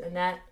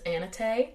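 First: "Annette" as two syllables, ending in -NET; Americanized pronunciation. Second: "Anette" in three syllables, ending in -tay; Norwegian pronunciation. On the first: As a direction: say "Annette" the American way, stress on the end. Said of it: "would be the more Americanized pronunciation". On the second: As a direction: say "Anette" as AN-uh-tay, American-sounding. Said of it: "the Norwegian pronunciation is". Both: Shown as a demonstration.

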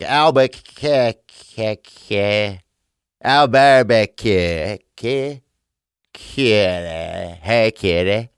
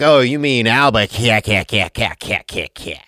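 First: Albuquerque stretched slowly into kitty calls; mangled Albuquerque. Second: Albuquerque said faster as if calling a kitten; mock correction. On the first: Retold or imitated. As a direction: drag out Albuquerque like calling a cat. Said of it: "I was like". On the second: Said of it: "the guy's like".

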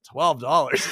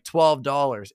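First: Loud, exaggerated "Twelve dollars"; incredulous outburst. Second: Said in the usual way. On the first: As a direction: re-enact your own appalled reaction to "Twelve dollars". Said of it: "I said it like that". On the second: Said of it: "and the woman's like".

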